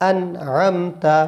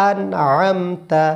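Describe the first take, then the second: Both takes have the same delivery.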